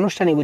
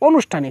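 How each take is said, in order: First: The word begins with an open 'aa' vowel. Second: The word begins with a short 'o' vowel. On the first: This is the standard form. The speaker calls it right. "আমরা জানি এটা আনুষ্ঠানিক উচ্চারণ" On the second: A child said it this way. The speaker calls it wrong. "শিশুটা এটাকে আনুষ্ঠানিক না বলে অনুষ্ঠানিক বলেছে"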